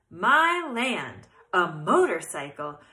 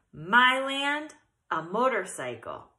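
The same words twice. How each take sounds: First: Put-on loud old aunt exclaiming; louder retake of the old aunt; second try. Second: Put-on old aunt exclaiming; a lightly voiced old aunt; first try. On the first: Re-read line as old Aunt Dorothy, louder. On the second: Old aunt shocked by the motorcycle, first read. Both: Shown as a demonstration. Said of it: "let me read that again".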